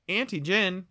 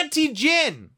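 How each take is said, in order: First: Said in the usual way. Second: Announcer product name. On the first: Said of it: "it's not auntie gin". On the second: Pretend. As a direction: announce the brand like a jingle.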